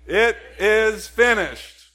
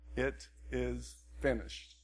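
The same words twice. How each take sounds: First: It is shouted loudly. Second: It is said at a normal speaking volume. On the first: "like Jesus, let's shout it" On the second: "Say that with me"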